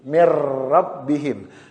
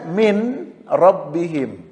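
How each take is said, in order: First: The n merges into a doubled r sound. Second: The n is sounded separately before the r. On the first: "cara membacanya atau mengucapkannya adalah mir rabbihim"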